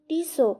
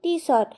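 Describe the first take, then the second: First: The word ends without any t sound. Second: The word ends with a clear t sound. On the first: The speaker calls it right. "শেষের টিটা উচ্চারণ হয় না তাই" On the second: The speaker calls it wrong. "ঘড়ির নামটা আমি বললাম টি শর্ট"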